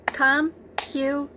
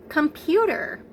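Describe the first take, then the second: First: "Computer" slowly, in three separate beats; clapped-out syllables. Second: Said in the usual way. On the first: Shown as a demonstration. Teacher trying a longer word with preschoolers, syllable by syllable. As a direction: chop "Computer" into three syllables, one per clap. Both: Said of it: "We can clap it too".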